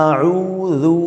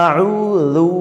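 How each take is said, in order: Both takes have the same delivery.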